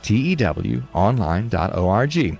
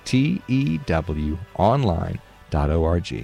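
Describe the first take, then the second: First: It is said at a quicker pace. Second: It is said at a slower pace.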